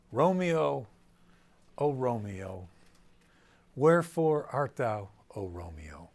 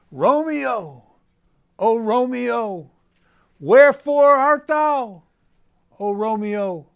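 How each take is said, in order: First: Said in the usual way. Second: "Romeo, oh Romeo, wherefore art thou" belted much higher and louder, slow and melodramatic; overwrought declaiming. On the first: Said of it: "So she says". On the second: Shown as a demonstration. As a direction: ham it up like a bad stage Juliet searching for Romeo. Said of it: "So maybe do it like this".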